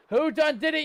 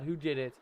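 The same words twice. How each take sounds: First: Loud, high pirate-style accusation; mock pirate shout. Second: Said in the usual way. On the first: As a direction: accuse the crew like a hammy pirate.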